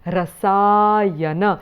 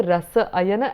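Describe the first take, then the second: First: Rasayana as one word, long middle aa; joined sandhi form. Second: Rasa ayana as two separate words. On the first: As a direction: slowly stretch the joined vowel in "rasayana". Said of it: "and it becomes". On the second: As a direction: say "rasa", then "ayana", unjoined. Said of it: "you put it together". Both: Shown as a demonstration.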